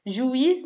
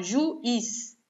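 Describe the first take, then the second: First: Said in the usual way. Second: Slow "juiz" split as ju, iz; separated syllables. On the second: Shown as a demonstration. Teacher showing why there is no accent, separated syllables. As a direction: pause between "ju" and "iz" in "juiz". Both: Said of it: "Quando eu separo juiz".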